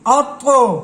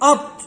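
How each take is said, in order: First: The final consonant is released with an echoing bounce. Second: The final consonant stops without any echoing bounce. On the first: The speaker calls it right. "कलकला भी करेंगे" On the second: The speaker calls it wrong. "ऐसे नहीं करना"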